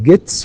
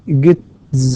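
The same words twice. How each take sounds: First: The word ends with a voiceless s sound. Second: The word ends with a voiced z sound. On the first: The speaker calls it right. "ت is also voiceless، فنقول gets" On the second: The speaker calls it wrong. "وليس gets"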